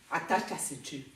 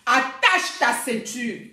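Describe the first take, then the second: First: Low, soft warning; quiet warning. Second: ATTACHE TA CEINTURE slow and forceful; emphatic warning. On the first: Warning a rival before court, quiet and restrained. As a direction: say it low and under your breath. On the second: Warning a rival before a fight, slow and emphatic. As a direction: stretch out "Attache ta ceinture", every word weighted. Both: Real, not acted.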